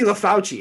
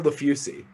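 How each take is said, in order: First: The middle syllable sounds like 'faw'. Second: The middle syllable sounds like 'foo'. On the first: The speaker calls it right. "got to be LaFauci. It has to be" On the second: The speaker calls it wrong. "but you're LaFusi"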